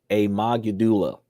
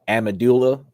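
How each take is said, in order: First: The word is said without the D sound. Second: The word is said without the G sound. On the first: "I know that probably be a silent D" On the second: "I think that's what it is if you have a silent G"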